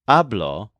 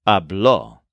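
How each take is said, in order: First: "hablo" said AB-lo, stress on the first syllable ha; "hablo" with the weight up front on ha, lo light. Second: "habló" said ab-LO, stress on the final ló; "habló" with the weight on the last syllable, ló; second syllable stressed. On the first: Teacher contrasting "hablo" with "habló", stress on ha. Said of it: "accent mark on the O ... changes the stress". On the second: Teacher contrasting "habló" with "hablo", stress on ló. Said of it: "changes the stress to the second syllable". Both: Shown as a demonstration.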